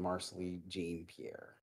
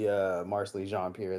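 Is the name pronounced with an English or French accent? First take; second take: English; French. First: The name is pronounced in an English way. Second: The name is pronounced in a French way. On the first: The speaker calls it wrong. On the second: The speaker calls it right. "I'd much rather somebody call me"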